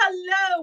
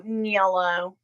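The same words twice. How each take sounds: First: Said in the usual way. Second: Yellow said for hello, with a y sound at the start; stepdad's hello. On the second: Retold or imitated. To her chat, copying how her stepdad says hello: Yellow. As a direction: imitate the stepdad greeting everyone with Yellow. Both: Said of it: "That's how my stepdad says hello".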